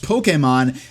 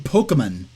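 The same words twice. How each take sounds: First: The middle 'e' vowel is clear and firm. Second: The middle 'e' vowel is weak and unclear. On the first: The speaker calls it right. "officially pronounced Pokemon" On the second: The speaker calls it wrong. "saying Pokemon"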